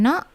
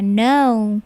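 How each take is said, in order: First: "no" short, like "naw" cut off; stubby monophthong "no"; wrong pure O. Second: "no" drawn out as "noh-oo"; long diphthong in "no"; English OU glide. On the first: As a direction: say "no" with no vowel glide. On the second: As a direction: say "no" with the vowel gliding to "oo". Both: Shown as a demonstration. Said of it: "bukan no ya".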